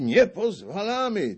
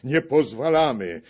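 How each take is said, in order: First: Much higher, Nie stressed; higher shouted veto. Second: Higher and louder, stress on Nie; loud protest. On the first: The narrator echoes the veto, much higher. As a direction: mimic the crowd's veto. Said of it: "ci krzyczą". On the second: The foreign gentry cry their veto, loud. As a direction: bellow the veto. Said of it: "woła w głos". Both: A narrator's reading.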